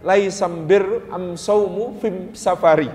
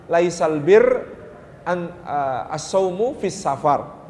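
First: Slow "Laisam bir am saumu fim safari" with am- in place of al-; Hudail dialect. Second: Slow "Laisal bir ... as-saumu fis safar" with al- as alif lam; Quraisy dialect. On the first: Preacher shows the Hudail wording of the hadith, slowly. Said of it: "tapi pakai alif mim". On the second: Preacher shows the Quraisy wording of the hadith, slowly. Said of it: "Quraisy menjadi alif lam". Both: Shown as a demonstration.

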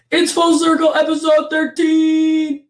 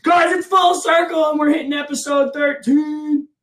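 First: Loud, high, drawn-out announcer intro; redone hype intro. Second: Loud, high announcer intro; hype podcast intro. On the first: Host restarting the intro for listeners, big announcer voice. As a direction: sell the show name big and slow. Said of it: "Let me try that again". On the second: Host opening the show for listeners, hyped announcer voice. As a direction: belt it out like a show opener. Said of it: "podcast intro announcement". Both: Acted.

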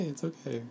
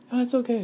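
First: Quiet, gentle calming back down; soft reassurance. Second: High, squeaky hurried reassurance; reassuring. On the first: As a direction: settle yourself softly. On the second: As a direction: soothe the panic in a tiny high voice. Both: Pretend. Soothing her panicked side.

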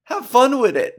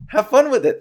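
First: High, bright catchphrase pop. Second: High, louder catchphrase; catchphrase again, higher. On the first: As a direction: toss it off like a signature line. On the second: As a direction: punch it out like a trademark slogan. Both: Shown as a demonstration. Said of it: "That's what I always say".

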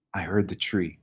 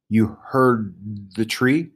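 First: "I heard the tree" quieter, falling at the end; subdued "I heard the tree", settling downward; confirming answer. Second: "You heard the tree" drawn out with a rise on "tree"; halting "You heard the tree", lifting into a question; slow question. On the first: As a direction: answer "I heard the tree" softly with a final fall. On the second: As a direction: ask "You heard the tree" slowly, rising at the end. Samar questions Stephen. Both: A narrator's reading.

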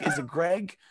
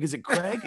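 First: Unsure try of "Greg". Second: "Craig" said with a hard K at the start, asking; testing the name as "Craig" with a questioning lift; unsure try of "Craig". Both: Shown as a demonstration. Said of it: "doubting I'm saying his name wrong".

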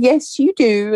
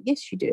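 First: Firmly voiced "Yes, you do."; firm insistence. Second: Quiet inner-voice aside, much softer; barely voiced "Yes, you do."; thought to herself. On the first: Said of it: "And I said". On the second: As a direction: keep "Yes, you do." hushed, as a private thought. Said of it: "And I thought".

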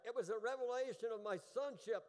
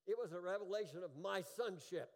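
First: Higher, louder preached repeat, falling at the end; emphatic repeat. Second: Firm preaching tone, falling at the end; preached statement. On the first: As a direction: drive it home harder from the pulpit. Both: Shown as a demonstration. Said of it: "Are you hearing that?".

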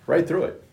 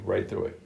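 First: High emphatic. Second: Low, then repeated. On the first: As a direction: lift it up and hit right. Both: Shown as a demonstration.

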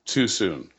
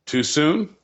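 First: Answering. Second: Questioning. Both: Shown as a demonstration.

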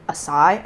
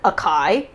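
First: Acai said uh-SIGH with an s; heard variant. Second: Acai said uh-KAI with a hard k; heard mispronunciation. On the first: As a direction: acai with an s sound in the middle. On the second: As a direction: acai with a crunchy k in the middle. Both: Retold or imitated. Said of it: "I've heard acai".

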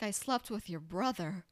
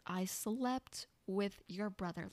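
First: Said in the usual way. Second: "I slept with your brother" said slowly, each word weighted; slow deadpan delivery. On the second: Retold or imitated. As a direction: drop the line slowly and flatly for effect. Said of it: "Let that sink in".

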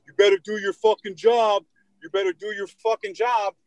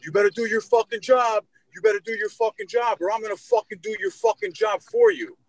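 First: Mock angry yell, pitched high; high, heated retold demand; imitated screaming. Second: Very high-pitched mock tirade; retold angry threat, climbing very high; imitated louder screaming. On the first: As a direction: imitate a meathead hollering orders. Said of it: "He starts screaming at me". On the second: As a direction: imitate a meathead escalating his yelling. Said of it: "even louder".

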